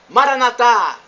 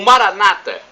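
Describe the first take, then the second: First: The stress is on the last syllable. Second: The stress is on the second-to-last syllable. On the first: This is how Catholics say it. "com a tônica na última sílaba" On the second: This is how Protestants say it. "Eles acentuam a palavra na penúltima sílaba"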